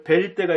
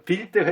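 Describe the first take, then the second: First: Said in the usual way. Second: "빌" with an "ee" vowel in place of "벨"; Jeolla dialect. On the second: Shown as a demonstration. Vlogger shows the Jeolla word for reaping, "빌" said with "ee". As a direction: say "빌 때가", dialect "ee" sound for "벨". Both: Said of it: "전라도 사투리로 또".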